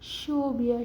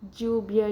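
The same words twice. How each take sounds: First: The word begins with an sh sound. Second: The word begins with a j sound. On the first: "el sonido de la S H" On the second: "el sonido de D J"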